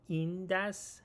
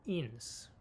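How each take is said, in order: First: It is said as two separate words. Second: It is said merged into one word. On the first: "هم میتونیم بگیم این دس" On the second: "ادغام"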